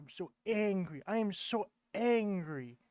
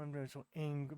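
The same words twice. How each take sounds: First: Rising into a hammed-up angry complaint; mock anger building. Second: Said in the usual way. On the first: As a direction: build from grumble to mock rage, stress am.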